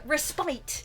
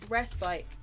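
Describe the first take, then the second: First: The stress is on the second syllable. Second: The stress is on the first syllable. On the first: The speaker calls it wrong. "But respite is wrong. The, pr- the emphasis shouldn't be on the spite part of the word" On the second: The speaker calls it right. "It should be respite"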